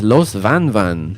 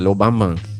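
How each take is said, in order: First: The name is said with its full written sounds. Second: The name is said with dropped s and b sounds. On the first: "also known as" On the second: "in Cuba they pronounce it"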